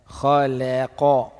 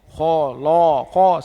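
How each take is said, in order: First: The lam is light between two heavy letters. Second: The lam is heavy like the letters around it. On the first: The speaker calls it right. "Yang betul la. Khalaqa. Kha tebal lam nipih qaf tebal" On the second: The speaker calls it wrong. "salah; Sebahagian orang dia tebal ketiga-tiga"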